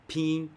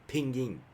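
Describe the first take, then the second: First: It is said with Chinese tones. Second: It is said with English-style intonation. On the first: "if I like speaking normal Chinese" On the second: "not like the uh, English version of Chinese"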